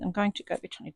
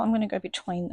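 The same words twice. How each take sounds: First: "going to" with both words said fully; carefully spelled-out "going to", no slurring. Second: "gonna" said quickly and run together; relaxed "gonna" slurred into one word; casual gonna. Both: Shown as a demonstration. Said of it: "see, stop saying gonna".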